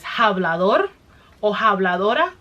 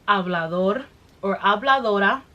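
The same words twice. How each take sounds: First: It is said with strong, intense emphasis. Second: It is said calmly with ordinary intensity. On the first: The accusation is heartfelt and strong. "there comes that passion again" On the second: The accusation is mild. "it's like level one"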